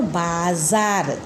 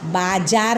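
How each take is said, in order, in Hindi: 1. बीच का व्यंजन 'z' ध्वनि है। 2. बीच का व्यंजन 'j' ध्वनि है। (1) "जेड का उच्चारण हो जाएगा" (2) "बाजार नहीं बोलेंगे"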